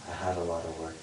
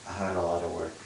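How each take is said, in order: No difference in how they are said.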